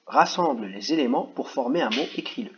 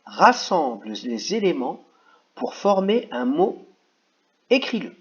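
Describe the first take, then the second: First: Said in the usual way. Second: "Rassemble les éléments pour former un mot, écris-le" read slowly, rising higher and louder at the end; slow dictation. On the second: Shown as a demonstration. Teacher reading the instruction aloud to children, slowly. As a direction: dictate each word slowly so children can follow. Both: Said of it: "je vais juste vous dire".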